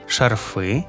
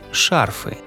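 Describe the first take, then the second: First: The stress is on the second syllable. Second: The stress is on the first syllable. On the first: "наголос на закінченні" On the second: "і на корені"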